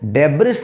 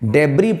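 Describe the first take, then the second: First: It ends with an audible s sound. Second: It ends on the vowel with no s. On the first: The speaker calls it wrong. "डेब्रिस नहीं" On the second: The speaker calls it right. "डेब्री पढ़ना है"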